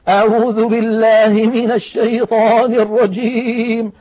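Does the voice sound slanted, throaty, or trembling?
trembling. The voice shakes and trembles throughout. The reciter fakes being emotionally moved. "جعلوا الصوت كأنه يهتز ويضطرب ويرتعد"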